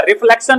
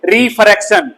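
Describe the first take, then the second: First: रिफ्लेक्शन said with an L, the word to avoid; रिफ्लेक्शन spoken as the mistake students make; wrong word, reflection. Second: रिफ्रैक्शन said with a clear R in the middle; teacher correcting, रिफ्रैक्शन said as the right word; correct word, refraction. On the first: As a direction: say रिफ्लेक्शन as the example of the wrong term, a bit quick. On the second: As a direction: give the corrected term रिफ्रैक्शन plainly. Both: Shown as a demonstration. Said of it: "रिफ्लेक्शन नहीं बोलेंगे".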